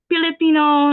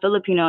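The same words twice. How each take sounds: First: The word begins with a P sound. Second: The word begins with an F sound.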